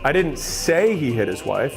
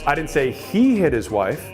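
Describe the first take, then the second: First: The stress is on the word say. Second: The stress is on the word he.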